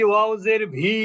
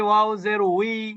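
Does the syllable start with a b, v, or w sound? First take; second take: v sound; w sound. First: The syllable starts with a v sound. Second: The syllable starts with a w sound. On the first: The speaker calls it wrong. "আমরা কেউ বলি ওয়াউজের ভি" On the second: The speaker calls it right. "আমরা যদি বলি ওয়াও জের উই"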